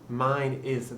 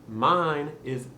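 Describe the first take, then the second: Both takes have the same delivery.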